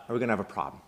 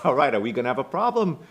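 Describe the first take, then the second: First: Bad Boston accent. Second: Loud, quick attempt at Boston that lands in Brooklyn; higher-pitched, Brooklyn-sounding tough-guy challenge; bad Boston accent. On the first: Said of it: "I don't do a good Boston accent". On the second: Chucky confronts the student who played with him, botched Boston accent. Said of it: "It's a Brooklyn accent, not Boston".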